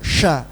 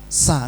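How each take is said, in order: First: The consonant is a full 'sh' sound. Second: The consonant is a plain 's' sound. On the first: The speaker calls it right. "tahu kalau sya itu besar" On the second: The speaker calls it wrong. "tapi dia bacanya sa"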